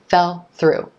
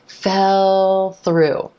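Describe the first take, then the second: First: The L sound stops before the next word. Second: The L sound flows smoothly into the next word. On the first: The speaker calls it wrong. "What you don't want to do is stop that sound" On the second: The speaker calls it right. "keep that sound flowing right into the consonant of the next word"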